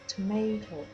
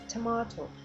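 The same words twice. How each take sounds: First: It is said with an American pronunciation. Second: It is said with a British pronunciation. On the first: "Americans said tomato" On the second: "instead of tomato"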